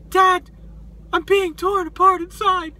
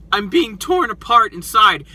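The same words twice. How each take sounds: First: Little hurt voice, pitched way up; small, high, imitated hurt son; Kylo Ren. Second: Lightly voiced tough guy; a hint of a tough guy act. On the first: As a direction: plead in a high, wounded mock voice. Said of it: "like, hurt voice". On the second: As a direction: put on a mild tough front. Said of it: "like, his tough guy voice".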